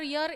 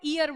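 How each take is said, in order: First: The word starts with a clear y sound. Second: The word starts with a long ee vowel. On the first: The speaker calls it right. "वो य से pronounce होता है" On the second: The speaker calls it wrong. "इसीलिए हम क्या बोलते हैं, ईयर बोलते हैं"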